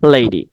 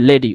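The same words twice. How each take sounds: First: The first vowel glides as an ei diphthong. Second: The first vowel is a plain short e. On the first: The speaker calls it right. "উচ্চারণটা হবে লেডি" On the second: The speaker calls it wrong. "আমরা বলি কি লেডি"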